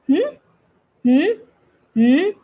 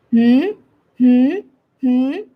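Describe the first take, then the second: The two takes are said the same way.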